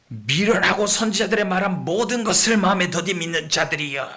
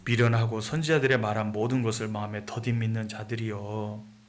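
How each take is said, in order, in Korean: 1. 꾸짖는 듯 거친 어조로 말합니다. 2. 따뜻하고 사랑이 담긴 어조로 말합니다. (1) "이렇게 말씀하셨을까요? 아니죠" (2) "사랑이 가득한 말로 하시지 않았겠습니까?"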